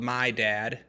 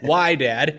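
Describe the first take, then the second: First: The name begins with an M sound. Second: The name begins with a W sound. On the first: The speaker calls it wrong. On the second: The speaker calls it right.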